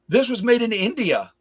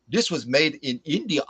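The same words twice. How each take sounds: First: It is said in the speaker's ordinary accent. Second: It is said in an imitated Indian accent.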